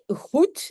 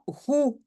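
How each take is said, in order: First: The final d sound is pronounced. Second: The final d sound is dropped. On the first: This is the standard Dutch form. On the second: This is the informal spoken Flemish form.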